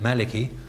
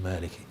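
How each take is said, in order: First: The first vowel is a short a. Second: The first vowel is a long a. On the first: "If you want to say it Maliki, you just, as it were, ignore that" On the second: "supply a dagger alif, and you've got your pronunciation Maliki"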